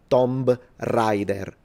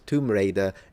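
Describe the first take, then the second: First: It is pronounced the way Italians typically read it. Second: It is pronounced the standard English way. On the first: The speaker calls it wrong. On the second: The speaker calls it right.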